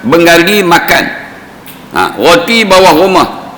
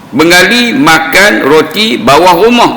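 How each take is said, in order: First: There is a pause after makan. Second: It is said without a pause after makan.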